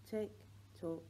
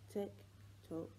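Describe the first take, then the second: No difference in how they are said.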